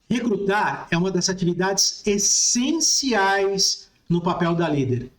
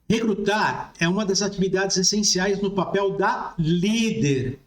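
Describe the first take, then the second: First: The word essenciais carries the main emphasis. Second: The word líder carries the main emphasis. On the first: "dessa vez eu vou sublinhar aqui, essenciais" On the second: "eu vou sublinhar aqui líder"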